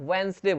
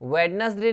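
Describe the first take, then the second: First: The d sound is silent in the middle. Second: The d sound is pronounced in the middle. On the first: The speaker calls it right. "वेंसडे बोलते हैं, डी silent रहता है" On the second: The speaker calls it wrong. "वेडनेसडे नहीं बोलते इसको"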